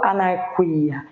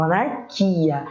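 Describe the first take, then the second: First: "anarquia" with the U sounded, a-nar-kwi-a; wrong anarquia. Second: "anarquia" with a silent U, a-nar-ki-a; correct anarquia. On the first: Teacher shows the students the wrong way, U sounded. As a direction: voice the U in "anarquia" on purpose. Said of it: "eu não falo anarquia". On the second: Teacher gives the students the correct form, U silent. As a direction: say "anarquia" with no U sound. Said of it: "falo anarquia". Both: Shown as a demonstration.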